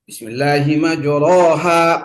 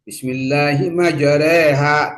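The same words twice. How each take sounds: First: The vowels have an open a quality. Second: The vowels lean slightly toward e.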